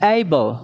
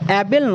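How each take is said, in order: First: The word begins with a gliding 'ay' vowel. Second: The word begins with a plain short 'a' vowel. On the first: The speaker calls it right. "অ্যাইবল, ঠিক এরকম" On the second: The speaker calls it wrong. "উচ্চারণটা কিন্তু অ্যাবেল নয়"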